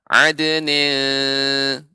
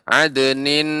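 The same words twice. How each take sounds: First: The n is hidden as a nasal sound. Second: The tongue presses up for a full n. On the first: The speaker calls it right. "lidah bagi di bagian tengah karena ini hukumnya ikhfa" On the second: The speaker calls it wrong. "Bukan bukan ditekan adnin, bukan"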